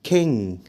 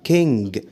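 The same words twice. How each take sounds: First: The word ends without a hard g sound. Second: The word ends with a hard g sound. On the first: The speaker calls it right. "قول king" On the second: The speaker calls it wrong. "وما تقولش king"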